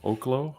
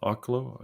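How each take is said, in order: First: Oklo said as OH-kloh; long-O pronunciation. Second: Oklo said as AH-kloh; open-AH pronunciation. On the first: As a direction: start Oklo with a long O, questioning. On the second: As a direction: start Oklo with an open AH, questioning. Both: Real, not acted. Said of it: "however you say it".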